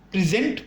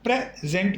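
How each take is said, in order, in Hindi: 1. Stress दूसरे अक्षर पर है। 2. स्ट्रेस पहले अक्षर पर है। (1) "स्ट्रेस जो है वो जेंट पर आएगा" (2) "यानी प्रे पर जोर आएगा"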